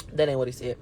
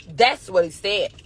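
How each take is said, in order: First: Very low, softer mock confession; deep, quiet comic undertone; joking aside. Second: Said in the usual way. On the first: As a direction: drop way down to take it back. Jokey aside retracting the claim.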